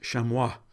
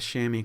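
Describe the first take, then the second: First: It is said with a French pronunciation. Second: It is said with an English pronunciation.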